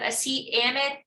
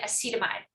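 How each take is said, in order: First: The word is said in separate parts. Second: The word is run together as one. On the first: "instead of acetamide" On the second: "They kind of flow the word all in all in one word"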